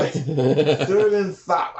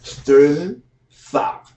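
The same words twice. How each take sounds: First: Slow, thick-tongued name; big tongue voice. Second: Slow, thick-tongued name, rising; big tongue voice. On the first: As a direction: mumble it through a big tongue. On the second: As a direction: drag it out through a big tongue. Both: Retold or imitated. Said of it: "the one with the big tongue".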